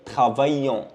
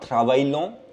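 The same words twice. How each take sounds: First: The double L is not sounded as L. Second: The double L is sounded as an L. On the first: The speaker calls it right. "I double L E at the end, they are not pronounced" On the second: The speaker calls it wrong. "not travaillons"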